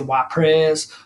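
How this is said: It is said with an American pronunciation. "the Americans say Wapres"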